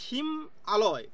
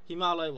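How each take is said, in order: First: The two parts are said as separate words. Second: The two parts are merged into one word. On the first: It takes longer to say and sounds unpleasant. The speaker calls it wrong. "এই হিম আলয় বলতে গেলে কিন্তু শুনতেও খারাপ লাগছে" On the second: It is quicker to say and sounds pleasant. The speaker calls it right. "খুব কম সময় উচ্চারণ করার জন্য কিন্তু কিনা হিমালয় বলা হচ্ছে"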